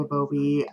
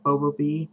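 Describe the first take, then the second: First: Babobi stressed in the middle, buh-BOH-bee; own pronunciation. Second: Bobobi with a full "boh" up front; alternate pronunciation. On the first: Vlogger giving her own way of saying the name, buh-BOH-bee. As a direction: say Babobi with a short weak first syllable. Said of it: "I call it". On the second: Vlogger giving a way she has heard and finds hard, BOH-boh-bee. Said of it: "I have heard it". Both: Shown as a demonstration.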